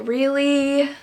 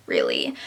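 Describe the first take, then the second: First: Drawn-out, incredulous "really?"; incredulous, a little raised; exasperated disbelief. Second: Very low, deadpan "really"; low, fed-up repeat of the question; unimpressed disbelief. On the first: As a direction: stretch it out in fed-up disbelief. Fed-up reaction to the trope. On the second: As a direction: drop way down, utterly unimpressed. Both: Acted.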